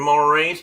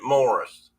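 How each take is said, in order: First: The name is pronounced as Maurice. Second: The name is pronounced as Morris. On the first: This is how the speaker always said it. The speaker calls it wrong. "I always called him Maurice" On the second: This is how the family actually said it. The speaker calls it right. "they actually pronounced it Morris"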